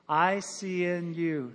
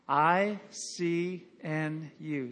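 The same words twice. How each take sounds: First: The letters are said a little faster. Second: The letters are said at a moderate pace. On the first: "Say it a little quicker" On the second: "Say it with me"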